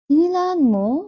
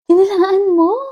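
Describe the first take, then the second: First: The question sounds let down and disappointed. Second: The question sounds warm and supportive.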